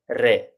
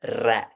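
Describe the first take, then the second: First: Rolled r and tight e in "re"; closed e. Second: Wide, open vowel in "re"; wrongly open e. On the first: Teacher modelling the Italian word for king, closed e. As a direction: say "re" with a closed e, near ray without the glide. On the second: Teacher showing how not to say king, open e. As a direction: say "re" with an open e, as in red. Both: Shown as a demonstration. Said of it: "It isn't an open sound".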